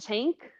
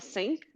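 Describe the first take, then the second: First: It is said with an Irish accent. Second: It is said with a German accent. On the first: "irlandeses falam" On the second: "os alemães falam"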